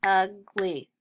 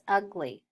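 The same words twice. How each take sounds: First: "ugly" split as ug, pause, ly; two separate beats on "ugly"; snapped syllables. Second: Said in the usual way. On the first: Shown as a demonstration. Teacher snapping out ugly, split into syllables. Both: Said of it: "Let's snap it".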